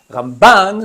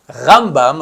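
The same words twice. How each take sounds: First: Ramban with BAN hit high and loud; stress on second syllable of Ramban. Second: Rambam with RAM hit loud and drawn out; stress on first syllable of Rambam. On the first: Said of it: "sur la deuxième syllabe". (Ramban, accent tonique sur la deuxième syllabe) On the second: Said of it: "avec l'accent tonique sur la première syllabe". (Rambam, accent tonique sur la première syllabe) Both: Shown as a demonstration.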